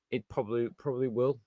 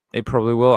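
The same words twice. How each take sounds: First: Softly, almost under the breath; quiet resignation. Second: "It probably will" louder, leaning on "will"; firm repeat. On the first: Admitting to viewers a sad prediction, quietly resigned. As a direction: let "probably will" drop away quietly. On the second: Repeating the prediction to viewers, firmly and louder. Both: Real, not acted. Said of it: "I know it sounds kind of sad thing to say".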